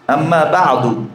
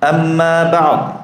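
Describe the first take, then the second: First: The last word ends on a short vowel. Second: The last word ends on a bare consonant.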